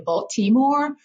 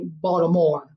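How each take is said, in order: First: The T sound in the middle is pronounced. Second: The T sound in the middle is dropped. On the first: The person saying it is not from the city. "if you're not from Baltimore, you'll say" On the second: The person saying it is truly from the city. "you'll roll it and say Baltimore without the T"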